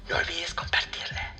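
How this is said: It is said in a whisper.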